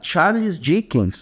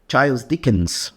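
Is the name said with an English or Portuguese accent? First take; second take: Portuguese; English. First: It is said with a Portuguese accent. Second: It is said with an English accent.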